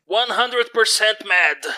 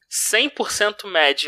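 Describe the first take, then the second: First: One hundred percent mad in slow English. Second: Said in the usual way. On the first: Shown as a demonstration. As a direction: say it slowly in English. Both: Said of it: "em inglês de novo".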